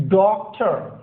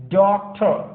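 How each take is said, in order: No difference in how they are said.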